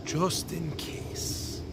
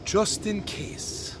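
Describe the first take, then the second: First: Slow, hushed Irish brogue, dying away; Irish brogue, softer. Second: Put-on slow, hushed old Irish brogue. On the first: Retold or imitated. Great aunt's answer echoed, fading slow Irish brogue. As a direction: repeat it quieter in the Irish brogue, trailing off. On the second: Great-nephew imitating his great aunt's reply, slow Irish brogue. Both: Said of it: "in her thick Irish brogue".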